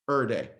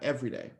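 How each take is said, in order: First: 'Every' is clipped to a single syllable. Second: 'Every' is said in full with all syllables. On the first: "the proper D M V pronunciation" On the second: "not every day"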